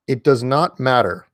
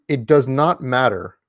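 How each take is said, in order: Both takes have the same delivery.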